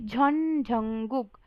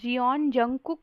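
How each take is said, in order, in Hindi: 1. पहले शब्द में एक अक्षर है, जैसे 'jhon'। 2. पहले शब्द में दो अक्षर हैं, जैसे 'jee-on'। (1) "बल्कि झॉन झंगुक" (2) "जियोन जंगकुक नहीं"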